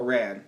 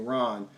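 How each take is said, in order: First: Said in the usual way. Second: "Ron" with an open "ah", for Rand; mispronounced surname. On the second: Real, not acted. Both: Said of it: "keep screwing up the pronunciation".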